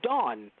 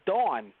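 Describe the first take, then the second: First: The name is said with the vowel of 'don'. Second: The name is said with the vowel of 'dawn'. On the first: This is the name as it is spelled. The speaker calls it right. "It's Dawn" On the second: This is how others said the name. The speaker calls it wrong. "why are they pronouncing it as Dawn?"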